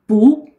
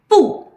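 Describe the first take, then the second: First: The syllable has a rising tone. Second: The syllable has a sharply falling tone. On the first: "then you change it to second tone" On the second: "if used alone is pronounced at the fourth tone"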